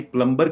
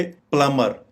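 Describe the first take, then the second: First: "प्लम्बर" with b pronounced; rejected pronunciation. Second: "प्लम्बर" as PLUH-mer; correct pronunciation. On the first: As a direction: say "प्लम्बर" as PLUM-ber. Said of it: "ना ही प्लम्बर कहेंगे". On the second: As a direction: drop the b from "प्लम्बर". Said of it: "rather इसको कहेंगे". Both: Shown as a demonstration.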